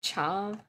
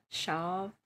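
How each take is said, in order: First: "Chav" with CH and long ah; CH variant. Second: "Shav" with SH and long ah; SH variant. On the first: Trying out options, "Chav" with CH-ah. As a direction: start "Chav" like church, vowel ah. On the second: Trying out options, "Shav" with SH-ah. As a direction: start "Shav" like shoe, vowel ah. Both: Shown as a demonstration. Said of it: "is it pronounced Shav or Chav".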